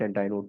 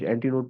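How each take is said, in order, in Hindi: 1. 'anti' शब्द 'eye' ध्वनि से खत्म होता है। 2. 'anti' शब्द 'ee' ध्वनि से खत्म होता है। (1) "कुछ एंटाई नोड पर दे" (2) "कुछ एंटी नोड पर दे"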